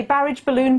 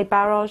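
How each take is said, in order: First: Barrage said "BARR-idge" before balloon; anglicised ending. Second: Barrage said "BARR-ahzh"; usual French-style ending. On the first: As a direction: say barrage like marriage. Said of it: "You say barrage balloon". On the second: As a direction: say barrage like collage. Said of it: "but you usually say barrage". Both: Shown as a demonstration.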